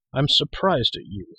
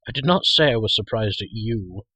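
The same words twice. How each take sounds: First: Slow, higher reproachful line with weight on I'm; frowning reproach. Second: Not pressed firm and falling; stress on not. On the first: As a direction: scold the smith for the nonsense. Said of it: "frowning at Cole". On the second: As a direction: lean on not to correct the boy. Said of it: "remarked Dalben". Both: A narrator's reading.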